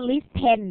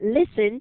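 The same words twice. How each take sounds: First: The word is said literally, following its spelling. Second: The word is said naturally, not letter by letter. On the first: The speaker calls it wrong. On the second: The speaker calls it right.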